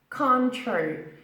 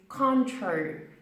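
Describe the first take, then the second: The two takes are said the same way.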